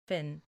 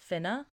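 First: The name ends on the n sound. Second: The name ends with a vowel sound.

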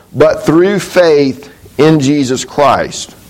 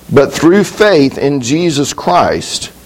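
Both takes have the same delivery.

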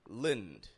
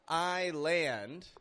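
First: The second syllable has a reduced schwa vowel. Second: The second syllable has a full 'a' vowel. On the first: The speaker calls it right. "but lind. This is an example of that schwa sound" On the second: The speaker calls it wrong. "I'm not giving it a full island"

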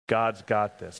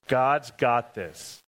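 First: It is said in a plain, moderate voice. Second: It is said loudly and with strong conviction. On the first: "Say that with me" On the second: "Now say it like you mean it"

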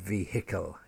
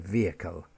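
First: The h sound in the middle is pronounced. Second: The h sound in the middle is silent. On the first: The speaker calls it wrong. "not vehicle" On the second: The speaker calls it right. "So in all of those, the H is silent"

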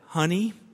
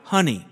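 First: It is said at normal, softer volume. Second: It is said a little louder.

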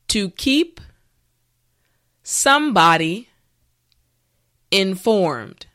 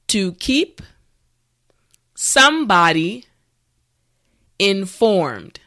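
The two takes are said the same way.

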